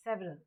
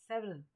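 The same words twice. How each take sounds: The two takes are said the same way.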